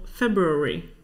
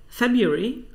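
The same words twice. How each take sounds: First: "February" with both Rs sounded; pronounced first R. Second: "February" without the first R; dropped first R. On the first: Host demonstrates the other pronunciation for viewers, first R pronounced. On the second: Host demonstrates the common pronunciation for viewers, dropped first R. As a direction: say "February" skipping the R after the b. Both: Shown as a demonstration. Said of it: "pronounce the first R".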